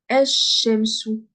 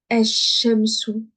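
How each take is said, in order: First: The L merges into a doubled sh sound. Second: The L merges into a doubled sh sound.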